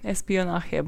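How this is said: It is said with an English accent.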